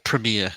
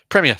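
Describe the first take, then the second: First: It is said in an American accent. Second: It is said in a British accent.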